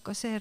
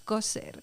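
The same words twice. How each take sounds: First: The stress is on the second syllable. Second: The stress is on the first syllable. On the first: It names the verb meaning to sew. The speaker calls it wrong. "nosotros no decimos coser" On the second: It names the rural speech corpus. The speaker calls it right. "llevan el acento en la primera sílaba"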